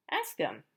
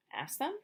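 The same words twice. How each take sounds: First: Said in the usual way. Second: Higher, softer rising doubt; surprised question. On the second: Acted. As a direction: repeat the idea unsure. Elephant surprised by the idea.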